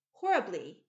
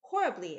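First: Loud, falling, stunned; amazed reply. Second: Loud, heavy falling repeat; amazed repeat. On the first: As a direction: answer in disbelief. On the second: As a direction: say it again, hitting it harder. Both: A narrator's reading. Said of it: "gazing at her in amazement".

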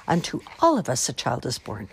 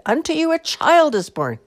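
First: Said in the usual way. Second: Loud, high-pitched yell; yelled announcement. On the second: A narrator's reading. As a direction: holler it at the shepherds. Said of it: "she yelled at the shepherds".

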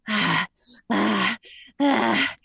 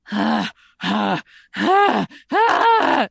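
First: Drooling hungry sounds. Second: Clown up the hungry panting; goofy drooling sounds. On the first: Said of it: "That sounds too sexual". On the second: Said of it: "So then you go goofy". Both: Shown as a demonstration.

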